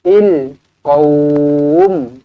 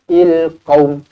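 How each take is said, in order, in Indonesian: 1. Vokal sebelum m akhir dibaca panjang. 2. Vokal sebelum m akhir dibaca pendek. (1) "sekurang-kurangnya dua harakat" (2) "Tak boleh, salah"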